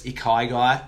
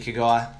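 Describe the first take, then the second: First: It is pronounced in a Japanese-like way. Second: It is pronounced in a broad Australian way. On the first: This is the proper pronunciation. The speaker calls it right. "I'm sure it's Ikigai" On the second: This is a casual local pronunciation. The speaker calls it wrong. "but I say Ikigai, typical Aussie bogan"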